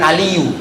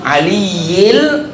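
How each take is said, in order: First: The word ends with a plain 'u' vowel. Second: The word ends with an 'il' sound. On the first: The speaker calls it wrong. "Bukan aliyu" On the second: The speaker calls it right. "aliyil azim"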